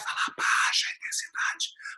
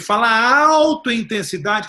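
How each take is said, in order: First: It is said softly. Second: It is said loudly.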